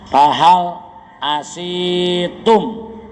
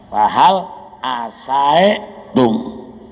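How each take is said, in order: First: The vowel after the s is i. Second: The vowel after the s is a. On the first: "dikasokeun sina"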